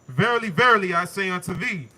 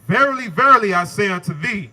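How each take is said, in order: First: It is read plainly, without extra force. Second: It is said with strong, emphatic force.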